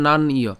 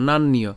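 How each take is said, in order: First: নান ইয় broken after "naan"; split into parts. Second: নান নিয় run together as "naan-niyo"; joined as one. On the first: Teacher breaks the word for learners, নান ইয় in two parts. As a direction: stop on নান, then add ইয় separately. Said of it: "আমরা এখানে নান পর্যন্ত উচ্চারণ করছি". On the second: Teacher puts it together, নান নিয় as one word. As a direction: link নান into নিয় with a doubled n. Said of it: "একসাথে উচ্চারণ করব". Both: Shown as a demonstration.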